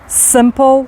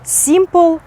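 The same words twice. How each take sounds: First: The first vowel is a short, relaxed i sound. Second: The first vowel is a tense, high ee-like sound. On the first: The speaker calls it right. "А насправді як ці слова будуть вимовлятися?" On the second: The speaker calls it wrong. "наші українці дуже часто вимовляють як І"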